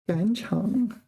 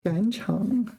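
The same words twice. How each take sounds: First: The second syllable has a low dipping tone. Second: The same.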